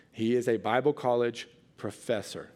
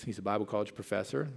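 First: Bible leaned on, falling tune at the end; stress on Bible. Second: Said in the usual way. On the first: Shown as a demonstration. Preacher reminding the congregation who Mike is, Bible stressed. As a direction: hit the word Bible so the congregation remembers. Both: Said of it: "Keep that in mind".

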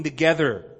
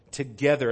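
First: Said in the usual way. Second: "Together" repeated alone, lower and falling; stress on together. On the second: Shown as a demonstration. Preacher repeating "Together" to the congregation, stressed. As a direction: lean on "Together" as its own word. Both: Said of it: "I want to emphasize that word together".

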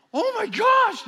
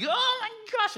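First: Put-on high, loud girlish shriek; shocked squeal. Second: Mock girlish squeal. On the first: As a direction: squeal like startled teenage girls. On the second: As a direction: imitate the girls gasping in shock. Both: Girls freak out at the reveal.

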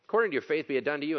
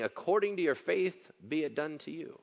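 First: According said louder and firmer; According punched as the problem line; louder reread. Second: Rising stress on According; scripture line read out. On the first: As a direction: press on According, be it done to you said fully. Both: Shown as a demonstration. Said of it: "That's the problem line".

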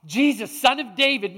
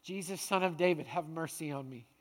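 First: Mild mock scream, slightly raised; restrained version of a desperate shout; retold cry for help. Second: Soft, low, subdued prayer; humble, hushed appeal for mercy; quiet plea. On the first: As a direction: call out insistently without really screaming. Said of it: "He screams at the top of his lungs". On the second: Acted. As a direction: let the plea sink to a hush. Same plea, now said as prayer.

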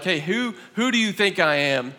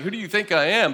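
First: Sincere, earnest asking; serious. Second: Dry, mocking question; sarcastic. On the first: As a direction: ask it and really mean it. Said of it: "asked somebody seriously". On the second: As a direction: say it with a sneer. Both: Shown as a demonstration.

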